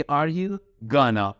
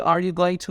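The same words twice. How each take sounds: First: Gonna as one word, "gah-nah"; careful teacher's model of contracted gonna; reduced going to. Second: Said in the usual way. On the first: Shown as a demonstration. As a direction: run going to together into gonna. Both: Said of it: "Going to مخففش شده gonna".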